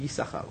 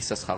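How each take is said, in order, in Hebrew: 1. רק צליל s אחד מבוטא, ולכן השם הוא Yissachar. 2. שני צלילי ה-s מבוטאים, ולכן השם הוא Yissaschar. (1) "צריך להגיד יששכר" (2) "יש חדשנים שרוצים, שקוראים בתורה אפילו אומרים יששכר. זה טעות"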